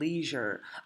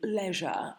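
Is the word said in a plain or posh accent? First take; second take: plain; posh. First: It is said in a plain everyday accent. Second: It is said in a posh accent.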